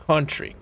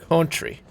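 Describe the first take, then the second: The two takes are said the same way.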